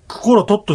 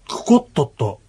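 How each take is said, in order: First: The r sound is kept before the t. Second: The r sound merges into a doubled t.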